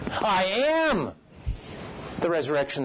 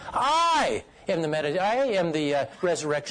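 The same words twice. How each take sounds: First: The stress falls on the word "am". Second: The stress falls on the word "I". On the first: He truly is the resurrection. "Meaning that he truly is that" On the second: It is this particular person who is the resurrection. "I might emphasize each word"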